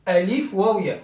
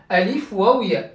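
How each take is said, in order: Both takes have the same delivery.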